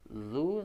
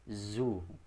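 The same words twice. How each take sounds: First: The consonant is a soft 'th' as in 'this'. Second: The consonant is a buzzing 'z' sound. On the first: The speaker calls it right. "dzu harusnya pakai huruf zal" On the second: The speaker calls it wrong. "namun dibacanya jadi zu"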